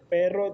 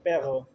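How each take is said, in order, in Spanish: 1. El sonido de la r se pronuncia de forma normal. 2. El sonido de la r se articula de forma alterada. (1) "en vez de decir perro" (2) "muchas personas en vez de decir perro dicen perro"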